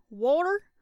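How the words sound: It is said in a Southern American twang. "I'm going to do a southern twang"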